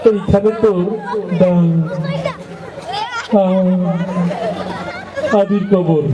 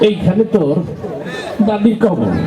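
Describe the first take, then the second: First: The words come out halting, with a stammer. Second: The words come out squirming and uneasy, as if itching. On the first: The reciter stammers. "একটু তোতলা টাইপের কথা বাইরে দিতে সময় লাগে" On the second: The reciter is itching all over. "চুলকানি রোগী আছে, তার আবৃত্তির ঢং ছিল এরকম"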